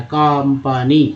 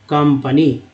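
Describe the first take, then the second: First: कंपनी drawn out very slowly, each syllable separated, ending on a rise; slow demo word. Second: Said in the usual way. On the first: Shown as a demonstration. Teacher slowly modelling कंपनी for Hindi students. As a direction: stretch out कंपनी syllable by syllable for the class. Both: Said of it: "तो अ हो रहा है".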